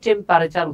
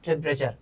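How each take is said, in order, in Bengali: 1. 'temp'-এর পরের স্বরধ্বনিটি পুরোপুরি উচ্চারিত হয়। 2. 'temp'-এর পরের স্বরধ্বনিটি নীরব থাকে। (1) "আমরা অনেকে এটাকে টেম্পারেচার উচ্চারণ করি, এটা উচ্চারণ কিন্তু টেম্পারেচার না" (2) "এই যে ইটা সাইলেন্ট থাকবে"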